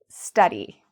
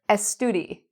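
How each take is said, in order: First: The word starts directly with the s. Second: An extra e vowel comes before the s. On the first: The speaker calls it right. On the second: The speaker calls it wrong.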